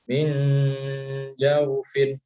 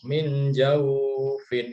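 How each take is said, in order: First: The vowel in the second word stays short. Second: The vowel in the second word is lengthened. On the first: The speaker calls it right. "nggak panjang ya, cuma dibaca apa namanya lunak" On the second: The speaker calls it wrong. "Jadi nggak dibaca min jauh, fin, itu salah ya"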